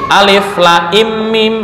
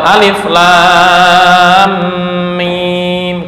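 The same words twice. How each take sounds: First: The vowel in mim is kept short. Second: The vowel in mim is held long. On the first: The speaker calls it wrong. "ini nggak boleh ditolong dengan harokat harokat apa yang meringankan" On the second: The speaker calls it right. "Tetap alif, lam, mim"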